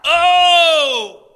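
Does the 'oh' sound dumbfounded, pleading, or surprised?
pleading. It sounds like a pleading cry.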